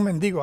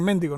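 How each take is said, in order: First: "mendigo" stressed on DI, as men-DI-go; Venezuelan stress. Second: "mendigo" stressed on MEN, as MÉN-di-go; Mexican stress. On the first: Preacher showing how Venezuelans say it, "mendigo" as men-DI-go. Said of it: "En Venezuela decimos mendigo". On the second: Preacher showing how Mexicans say it, "mendigo" as MÉN-di-go. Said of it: "en México creo que dicen mendigo". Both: Shown as a demonstration.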